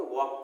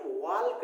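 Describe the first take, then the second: First: वॉक said as wawk with the L dropped; वॉक with a silent L, the correct way. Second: वॉल्क said with the L sounded, walk-k; वॉल्क pronounced with a clear L; wrong spelling pronunciation. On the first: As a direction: say वॉक without any L sound. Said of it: "बल्कि इसे क्या पढ़ते हैं". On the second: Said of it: "इसे हम वॉल्क नहीं पढ़ते हैं". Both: Shown as a demonstration.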